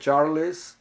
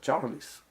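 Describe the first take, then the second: First: The final L is a clear, crisp L. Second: The final L sounds like a vowel 'ou'. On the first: The speaker calls it wrong. "a pronúncia é L, como a maioria dos brasileiros falaria" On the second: The speaker calls it right. "A pronúncia desse L é ou"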